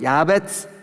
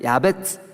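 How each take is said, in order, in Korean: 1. 마지막 음절은 ts 같은 소리로 시작해요. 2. 마지막 음절은 ts 같은 소리로 시작해요.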